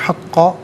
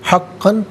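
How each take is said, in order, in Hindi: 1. शब्द के आख़िर में लंबा अ स्वर है। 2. शब्द के आख़िर में n की आवाज़ है। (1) "वफ़ की सूरत में हक़्क़ा पढ़ा जाएगा" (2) "हक़्क़न पढ़ेंगे"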